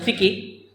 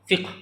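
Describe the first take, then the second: First: An extra vowel separates the last two consonants. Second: The last two consonants come together without a vowel. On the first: "yang kita kenal dengan fikih" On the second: "sebenarnya dibacanya fiqh"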